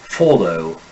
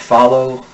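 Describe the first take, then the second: First: The first vowel is a rounded 'o' sound. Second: The first vowel is an open unrounded 'ah'.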